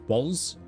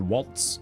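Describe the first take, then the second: First: The name ends in a buzzing z sound. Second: The name ends in a crisp ts sound. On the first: The speaker calls it right. "Walls with a little more juice on the S to make it a Z sound" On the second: The speaker calls it wrong. "Not waltz"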